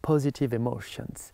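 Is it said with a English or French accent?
English. It is said with an English accent.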